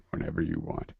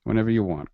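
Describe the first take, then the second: First: Soft unvoiced whisper. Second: Said in the usual way. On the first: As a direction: breathe it out in a whisper.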